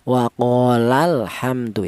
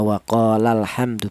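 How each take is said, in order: First: The 'la' syllable is pressed, slightly higher and stronger. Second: The 'la' syllable is said plainly, without extra stress. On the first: Two people said it. "lamnya lafal kola itu ditekan ... ditekan sedikit" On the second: One person said it. "kalau kola biasa mufrad itu biasa cara bacanya"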